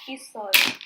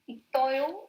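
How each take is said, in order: First: The consonant carries over, giving an s sound. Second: The consonant stays separate, giving a t sound. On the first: The speaker calls it right. "gets carried over to the next syllable" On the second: The speaker calls it wrong. "it's not itoyo"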